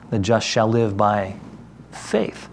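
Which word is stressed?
faith. The stress is on "faith".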